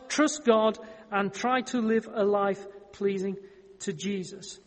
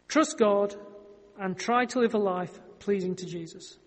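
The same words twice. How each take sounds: First: It is said slowly. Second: It is said fast.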